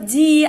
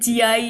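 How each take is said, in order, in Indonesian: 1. Tidak ada vokal tambahan yang terdengar setelah ji. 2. Ada vokal tambahan a yang terdengar setelah ji. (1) "bacanya mah tetap ji, alifnya nggak dibaca" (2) "bukan jia kan?"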